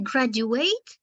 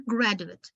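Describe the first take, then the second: First: "graduate" ending in a full "ate"; verb ending. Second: "graduate" ending in a short, weak "it"; noun ending. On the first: Teacher contrasts verb with noun, "graduate" ending in full "ate". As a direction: say "graduate" with the last syllable like "eight". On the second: Teacher contrasts noun with verb, "graduate" ending in short "it". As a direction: say "graduate" as GRAD-u-it. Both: Shown as a demonstration. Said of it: "pronounced differently when it is noun".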